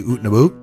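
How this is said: It is said in a Canadian accent.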